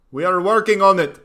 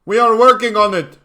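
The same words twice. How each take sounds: First: Higher, louder mock African accent; bad African accent. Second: Put-on much higher, much louder crude African accent; exaggerated African accent. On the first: Streamer mocking Uganda in a bad African accent. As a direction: crude African accent, stress on working. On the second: Streamer repeating the line in a bigger fake African accent. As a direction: push the African accent even harder. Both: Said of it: "Worst African accent ever".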